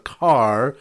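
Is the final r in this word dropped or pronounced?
pronounced. The final r is pronounced, in a general accent.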